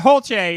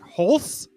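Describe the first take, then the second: First: The name ends with a 'ch' sound. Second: The name ends with an 's' sound. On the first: The speaker calls it right. "Holche is a lot better" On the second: The speaker calls it wrong. "than like Holse"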